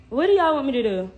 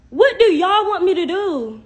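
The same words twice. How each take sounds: First: Said in the usual way. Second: Loud, high, drawn-out demand; exasperated outburst. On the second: Real, not acted. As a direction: throw it at them, slow and exasperated. Exasperated plea to critical viewers.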